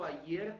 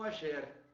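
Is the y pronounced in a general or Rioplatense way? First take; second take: general; Rioplatense. First: The y sounds like an i sound. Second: The y sounds like a j sound.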